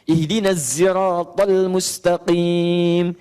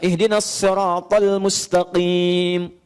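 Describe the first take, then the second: First: Siratal begins with a z sound. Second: Siratal begins with a plain s sound. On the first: A reading for those who cannot say sad or sin. "dia pakai zai" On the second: A reading that uses sin.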